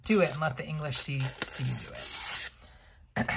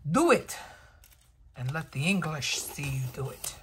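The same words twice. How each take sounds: First: Quick then whispered mock Scottish line; half-hearted Braveheart accent, trailing off; lightly Scottish movie quote; Mel Gibson Braveheart again. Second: Loud Scottish-ish movie rallying cry; mock Scottish battle cry; Mel Gibson Braveheart. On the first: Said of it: "Mel Gibson in Braveheart". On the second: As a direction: shout it like Braveheart rallying the troops. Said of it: "I don't know what accent that was, ... Mel Gibson in Braveheart".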